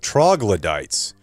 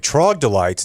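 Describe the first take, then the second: First: The word is said with its dictionary sounds. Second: The word is said with altered, nonstandard sounds. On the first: The speaker calls it right. "instead of troglodytes" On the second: The speaker calls it wrong. "You say troglodytes instead of"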